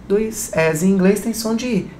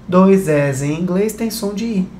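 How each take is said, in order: Both takes have the same delivery.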